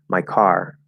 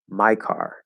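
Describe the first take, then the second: First: The stress falls on the word car. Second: The stress falls on the word my. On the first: "without any special emphasis on my" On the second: "it is possible to make my more stress than car"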